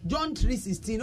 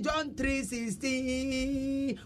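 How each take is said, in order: First: Said in the usual way. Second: Very slow, drawn-out pupil's recital; schoolchild reciting. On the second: Acted. Pupil answering the teacher's question, reciting slowly in a long singsong. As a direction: stretch the last syllable like a child reciting. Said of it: "akwadaa bi na ɔkɔ school".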